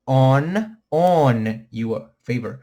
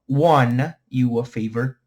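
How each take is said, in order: First: Slow model, lean hard on ON; pronúncia certa de OWN. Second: Slow, drawn-out WON starting with a w; pronúncia errada, WON. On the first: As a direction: OWN as a long, loud "onn", no w sound. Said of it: "Pegaram o som?". (ON forte e alongado, sem som de w) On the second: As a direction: show the mistake: "wan" for OWN. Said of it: "Não digam "won". (WON alongado, o erro a evitar) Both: Shown as a demonstration.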